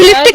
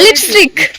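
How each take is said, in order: First: The s sound before the t is dropped. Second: The s sound before the t is kept. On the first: The speaker calls it wrong. "ಅದು ಲಿಪ್ಟಿಕ್ ಅಲ್ಲ" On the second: The speaker calls it right.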